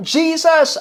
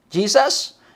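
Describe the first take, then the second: First: High-pitched call, imitating a lone shouter; retold shout. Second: Tentative question, rising at the end; doubtful questioning. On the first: Someone in the crowd shouts for Jesus, retold shout. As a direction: cry it out as one voice in the crowd. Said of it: "maring may sumigaw doon ng". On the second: Retold or imitated. The lone shouter questioned by glaring people, doubtful echo. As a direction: ask it as if unsure, under hostile stares. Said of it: "Tas tinignan siya masama".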